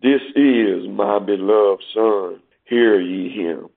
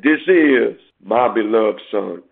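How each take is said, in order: First: Slow, lower, solemn voice of God; voice from heaven. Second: A touch slower, lightly solemn quote; lightly voiced heavenly voice. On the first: Acted. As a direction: speak slowly as the heavenly Father. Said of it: "a voice from heaven". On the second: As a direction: read the Father's words with a hint of solemnity. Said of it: "his voice came out of the cloud, which said".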